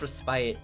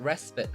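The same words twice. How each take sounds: First: The second syllable rhymes with 'spite'. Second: The second syllable sounds like 'spit'.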